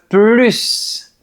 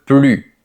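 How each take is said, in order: First: The final S sound is pronounced. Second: The final S sound is silent. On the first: Wanting a greater amount of it. "On veut augmenter. Dans ce cas, on prononce plus" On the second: Not wanting any more of it. "on prononce plus parce que c'est une négation"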